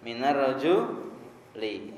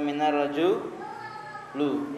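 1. Kata terakhir diakhiri dengan vokal i. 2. Kata terakhir diakhiri dengan vokal u. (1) "Yang betul apa?" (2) "atau minar roju lu"

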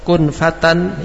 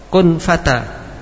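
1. Berakhir dengan n dan langsung bersambung. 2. Berakhir dengan vokal, lalu berhenti. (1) "kalau kita baca wasol" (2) "kalau di wakob, ... berhenti"

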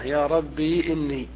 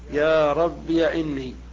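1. تنتهي كلمة rabb بياء ممدودة. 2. تنتهي كلمة rabb بـ iya. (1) "إثبات الياء ساكنة" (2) "إثباتها مفتوحة"

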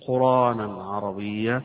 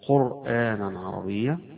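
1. في الكلمة الأولى ألف ممدودة عادية، دون همزة. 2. في الكلمة الأولى همزة قبل الألف الممدودة. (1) "وقراءة ابن كثير قرآنا عربيا، يعني بنقل الهمزة بالألف بدل الهمزة" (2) "قراءة الجمهور"

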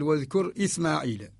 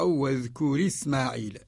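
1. الهمزة قبل "إسماعيل" تُنطق. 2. الهمزة تُسقَط، وحركتها تُلحق بالراء. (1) "الأصل واذكر إسماعيل كما هو رواية الإمام قالون" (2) "نقل حركة الهمزة للساكن قبلها فسقطت الهمزة"

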